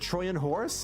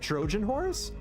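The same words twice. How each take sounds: First: The middle consonant is a Y sound. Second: The middle consonant is a J sound. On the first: The speaker calls it right. "It's actually pronounced Troyan. So it's actually the" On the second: The speaker calls it wrong. "not the"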